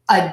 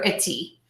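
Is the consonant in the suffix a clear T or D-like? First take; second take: D-like; clear T. First: It has a schwa and a D-like flap. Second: It has a clear T and a full vowel. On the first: The speaker calls it right. "we're going to use that schwa sound for the uh, and then say D, and then add that long E" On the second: The speaker calls it wrong. "Most of my students, when they see this I T Y suffix, they pronounce it"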